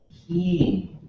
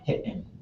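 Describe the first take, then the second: First: The vowel starts high and falls. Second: A glottal stop breaks the vowel. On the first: "it starts high and then it falls at the end" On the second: "you would have this glottal stop right in the middle"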